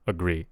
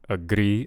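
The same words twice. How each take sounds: First: The R is a smooth, gliding sound. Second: The R is a quick tapped sound. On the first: The speaker calls it right. "instead of a ra ra ra" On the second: The speaker calls it wrong. "I'm kind of hearing like a tap"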